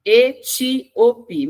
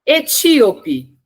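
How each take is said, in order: First: "Etíope" very slowly, split E-tí-o-pe; syllable by syllable. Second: ETÍOPE said as one word, high and loud; announced word. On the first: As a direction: break "Etíope" into separate, emphatic syllables. Teacher splits word into syllables. ("Etíope" silabado devagar, E-tí-o-pe) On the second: Teacher announces the next word. ("Etíope" anunciado inteiro, alto e enfático) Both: Shown as a demonstration.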